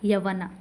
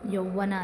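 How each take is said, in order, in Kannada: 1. ಮೊದಲ ಸ್ವರ ಹ್ರಸ್ವ 'a'. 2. ಮೊದಲ ಸ್ವರ ಸಂಯುಕ್ತ ಸ್ವರ 'au'.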